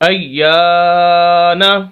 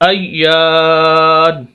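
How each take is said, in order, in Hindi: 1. यह शब्द छोटे "a" स्वर पर खत्म होता है। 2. यह शब्द बिना स्वर वाली "n" की आवाज़ पर खत्म होता है। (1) "नून जबर ना" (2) "वक्फ करेंगे, नून को साकिन कर देंगे, जबर खत्म हो जाएगी"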